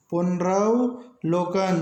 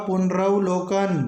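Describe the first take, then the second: First: पुनरवलोकन drawn out slowly, every syllable clear; slow correct pronunciation. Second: Said in the usual way. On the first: Shown as a demonstration. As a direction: dictate पुनरवलोकन slowly to the class. (पुनरवलोकन धीरे-धीरे, हर अक्षर साफ़) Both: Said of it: "ये शुद्ध शब्द होगा".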